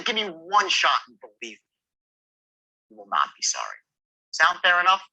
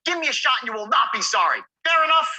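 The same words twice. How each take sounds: First: Confident reasonable close; reasonable man tone. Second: Higher, louder pushy plea; wrong tonality, needy and loud; pushy pleading tone. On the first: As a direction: sound like a reasonable guy offering a deal. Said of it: "reasonable man tone". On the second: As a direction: beg for the shot too hard. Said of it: "Not like". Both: Shown as a demonstration.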